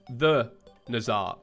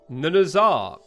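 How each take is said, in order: First: The words are said separately and clearly. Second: The words are run together into one. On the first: The speaker calls it right. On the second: The speaker calls it wrong.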